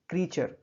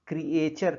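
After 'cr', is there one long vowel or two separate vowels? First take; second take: one vowel; two vowels. First: It has one long vowel, like 'cree-cher'. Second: It has two separate vowels, like 'cree-ay-cher'. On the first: The speaker calls it right. "ये होना चाहिए क्रीचर" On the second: The speaker calls it wrong. "इसका pronunciation क्रिएचर करते हैं कुछ लोग, जो कि गलत है"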